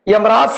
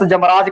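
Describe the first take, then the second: First: The word begins with a y sound. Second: The word begins with a j sound. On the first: The speaker calls it right. "ਯਮਰਾਜ ਸਹੀ ਹੈ" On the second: The speaker calls it wrong. "ਅਗਲੇ ਭਲੇਖੇ ਵਸ ਜਮਰਾਜ ਕਰ ਦਿੰਦੇ ਆ"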